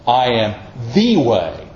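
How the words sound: The word 'the' is strongly emphasized. It points to one particular way. "let me say it this way"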